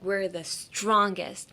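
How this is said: The stress is on "strongest".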